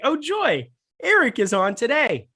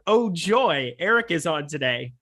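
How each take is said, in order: First: It is said in a sincere, cheerful tone. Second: It is said in a sarcastic, mocking tone. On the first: The speaker is genuinely happy about it. "I'm gonna take it positively" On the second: The speaker is not actually happy about it. "I'm gonna assume that he's meant it sarcastically"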